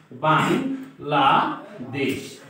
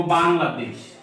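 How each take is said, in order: First: "Bangladesh" very slowly as "বাং", "লা", "দেশ", with pauses; slow, lower "Bangladesh", a gap after each syllable. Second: Said in the usual way. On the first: Shown as a demonstration. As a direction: break "Bangladesh" into three separated syllables. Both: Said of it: "এই শব্দটা আমরা কয়ভাবে উচ্চারণ করি".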